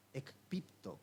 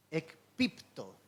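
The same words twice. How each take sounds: First: Ekpipto repeated softer, quick and plain; Greek word repeated. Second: Ekpipto said slowly, syllable by syllable; ekpipto, careful slow Greek pronunciation; Greek word. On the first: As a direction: ekpipto again, softly in passing. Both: Shown as a demonstration. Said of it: "la palabra caer es interesante en el griego".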